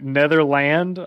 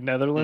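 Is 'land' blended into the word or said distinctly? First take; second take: distinct; blended. First: The 'land' part is said distinctly and fully. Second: The 'land' part is run together with the rest. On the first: "I never say Netherland" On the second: "It all kind of just cursives"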